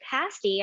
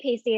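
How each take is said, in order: First: It is said with a British pronunciation. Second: It is said with an American pronunciation. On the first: "they pronounced it pasty" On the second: "I would read it in my head and I would say pasty"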